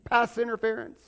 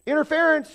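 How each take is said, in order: First: Referee announcement. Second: Loud, high referee call of interference. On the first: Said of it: "He throws the flag". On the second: God calling a foul on meddling churchgoers, loud and high. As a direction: blow the whistle and bark the call out loud. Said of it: "God's like". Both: Retold or imitated.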